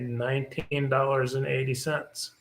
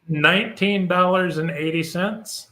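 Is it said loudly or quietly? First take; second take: quietly; loudly. First: It is said at a normal, quieter volume. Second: It is said loudly.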